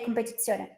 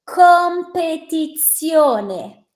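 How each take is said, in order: First: The word is said without careful articulation. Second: The word is said with careful, clear articulation. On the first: A listener cannot understand it. "you will never know what I said" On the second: A listener has a chance to understand it. "if I enunciate clear enough and articulate my word"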